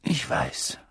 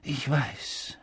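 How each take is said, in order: First: Breathy whisper, words catching; choked whisper. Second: Soft, heavy-hearted murmur; choked voice. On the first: Old headmaster consoling the professor, in a choked whisper. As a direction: let the voice fail into a whisper. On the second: Old headmaster consoling the grieving professor, softly choked. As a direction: say it with a lump in the throat. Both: Acted. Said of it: "mit belegter Stimme".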